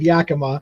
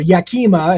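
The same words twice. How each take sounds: First: The name is said with the local pronunciation. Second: The name is said with an outsider's pronunciation. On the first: The speaker is from the area. The speaker calls it right. "that's not how it's pronounced" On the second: The speaker is not from the area. The speaker calls it wrong. "get mispronounced all the time"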